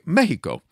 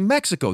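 First: The word has a Mexican Spanish pronunciation. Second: The word has an English pronunciation. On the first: This is how people in Mexico say it. "They say Mexico" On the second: This is not how people in Mexico say it. "in Mexico, they also don't say Mexico"

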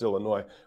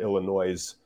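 First: The word ends without an S sound. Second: The word ends with an S sound. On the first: The speaker calls it right. "They don't say the S" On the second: The speaker calls it wrong. "which is just hilarious"

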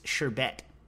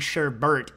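First: The second syllable has no r, like bet. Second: The second syllable has an r, like bert. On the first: This matches how the word is spelled. "even if it is sherbet" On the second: This is the form used since childhood. "all of us grew up saying sherbert"

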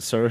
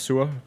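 First: The word sounds like 'sir', with an er vowel. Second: The word sounds like 'sewer', with an oo vowel. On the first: It sounds like a royal title. "but you pronounce it Sir" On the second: It is the original word meaning sour. "in Danish it's pronounced Sua"

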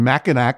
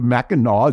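First: The last syllable is pronounced as spelled, ending in 'k'. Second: The last syllable ends in an 'aw' sound. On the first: The speaker calls it wrong. "You got so mad at me for saying Mackinac" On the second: The speaker calls it right. "instead of Mackinac"

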